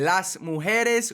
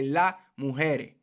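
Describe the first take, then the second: First: The S sounds are clearly pronounced. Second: The S sounds are left out. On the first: "instead of saying las mujeres" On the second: "we say la mujer. All right, we, we don't say the S's"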